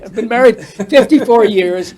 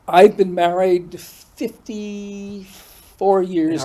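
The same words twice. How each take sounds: First: It is said fast. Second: It is said at a normal pace.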